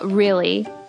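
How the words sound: It ends in a long ee sound, American.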